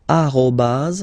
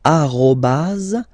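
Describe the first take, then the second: First: "arrobase" at normal pace, a-ro-baz; French arrobase. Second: "arrobase" slow, a-ro-baz; drawn-out "arrobase", French r. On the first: Teacher repeating the at sign name. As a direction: say "arrobase" again. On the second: Teacher naming the at sign in French. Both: Shown as a demonstration. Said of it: "we called it".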